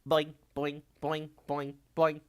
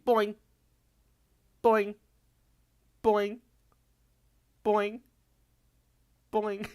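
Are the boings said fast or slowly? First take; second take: fast; slowly. First: The boings are said quickly, run together. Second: The boings are said slowly, each one separate. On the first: The speaker calls it wrong. "if I say it too fast, I don't boing" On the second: The speaker calls it right. "So it has to be"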